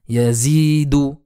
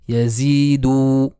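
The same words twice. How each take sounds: First: The final vowel is short. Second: The final vowel is lengthened. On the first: The speaker calls it right. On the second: The speaker calls it wrong.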